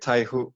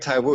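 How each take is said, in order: First: The second syllable begins with an h sound. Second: The second syllable begins with a w sound. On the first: "It's Taihu" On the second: "Are you saying Taiwu?"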